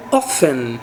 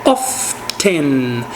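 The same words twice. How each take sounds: First: Often said as OFF-en, silent T; often without the T. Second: Often said as OFF-ten, T sounded. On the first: Teacher models often with no T. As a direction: say often with no T sound. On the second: Teacher models often with the T spoken. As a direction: sound the T in often, slow and low. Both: Shown as a demonstration. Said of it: "Eu posso pronunciar o T ou não".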